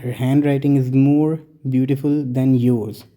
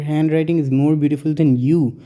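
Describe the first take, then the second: First: Very slow, careful reading of the correct sentence; slow model sentence. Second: Slow reading with weight on you at the end; slow wrong example. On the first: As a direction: read the right example slowly for the class. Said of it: "हम कहते हैं". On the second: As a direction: read the faulty sentence out slowly to show the mistake. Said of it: "लेकिन अगर हम ये कहें". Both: Shown as a demonstration.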